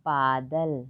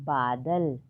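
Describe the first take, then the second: The two takes are said the same way.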